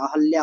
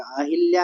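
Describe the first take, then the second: First: अहल्या said "a-hal-ya", no i; the right अहल्या, short and clean; correct form shown. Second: अहिल्या said "a-hil-ya" with an i; the incorrect अहिल्या, stretched first a; wrong form named. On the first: Teacher gives the correct अहल्या to students. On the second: Teacher marks अहिल्या as the wrong form. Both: Shown as a demonstration. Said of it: "अहिल्या नहीं होता है".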